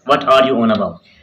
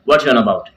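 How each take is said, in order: First: The word 'are' is fully pronounced. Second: The word 'are' is dropped, merged into 'what's'. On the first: "full form है" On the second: "ये है British accent"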